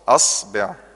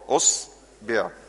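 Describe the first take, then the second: First: The word begins with an a vowel. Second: The word begins with a u vowel. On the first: "خلي الأهل الهمزة مفتوحة" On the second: "انزل كده على الضمة"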